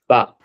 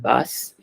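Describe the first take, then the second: First: The final consonant is silent at the end. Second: The final consonant is sounded at the end. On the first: The speaker calls it right. "We don't say the last consonant in French" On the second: The speaker calls it wrong. "it's not bas"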